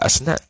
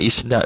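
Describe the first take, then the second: First: The word begins with an 'a' vowel. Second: The word begins with an 'i' vowel. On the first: The speaker calls it wrong. "bukan asnad" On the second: The speaker calls it right. "hamzah tu kena berbawah"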